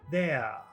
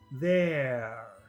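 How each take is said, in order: First: The final R sound is dropped. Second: The final R sound is pronounced.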